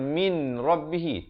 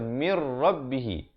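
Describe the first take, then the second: First: The n sound is heard before the r. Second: The n merges into the r, no nasal hum. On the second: "di sini kena baca mir rabbihi"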